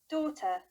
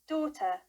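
Both takes have the same delivery.

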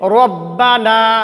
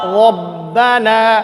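First: The first sound is said with rounded lips. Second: The first sound is said with unrounded lips. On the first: The speaker calls it wrong. "কেমনে ঠোঁট গুল করি?" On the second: The speaker calls it right. "এই র শব্দটা কেমনে পড়তে হবে"

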